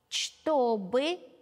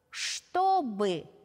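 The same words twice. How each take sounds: First: Every letter is sounded exactly as written. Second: It is sounded in natural everyday pronunciation. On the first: "Сначала орфографически, как оно пишется" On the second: "а затем орфоэпически"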